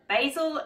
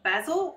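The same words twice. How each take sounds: First: It is said in an American accent. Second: It is said in a non-American accent.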